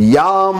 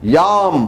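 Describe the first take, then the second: First: The syllable is said as 'yaam' with long vowel. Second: The syllable is said as 'yaam' with long vowel.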